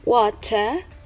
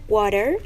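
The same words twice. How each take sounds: First: It is said with a British accent. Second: It is said with an American accent. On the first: "In British accent would sound like water" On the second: "in American accent would sound like water"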